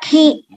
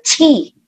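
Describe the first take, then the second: First: It starts with a hard k sound. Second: It starts with a ch-like sound. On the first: The speaker calls it wrong. "jangan dibaca ki, bukan bahasa Indonesia ki" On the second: The speaker calls it right. "tapi baca ci"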